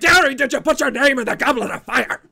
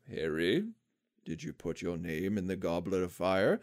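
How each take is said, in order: First: It is screamed loudly and aggressively. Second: It is said calmly, at normal volume.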